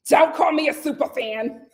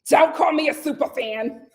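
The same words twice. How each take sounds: First: It is said imitating Kim's voice. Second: The same.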